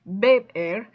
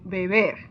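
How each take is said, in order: First: The stress is on the first syllable. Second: The stress is on the last syllable. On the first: The speaker calls it wrong. "that's weird" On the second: The speaker calls it right. "You can hear that I say more strongly the er, which is the last syllable"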